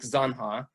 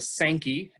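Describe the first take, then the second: First: The word ends in an 'ah' sound. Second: The word ends in an 'ee' sound. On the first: This is the official name. "officially, it's called the Mill Creek Zanha" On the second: This is the everyday local name. "S A N K E Y is largely how locals pronounce it"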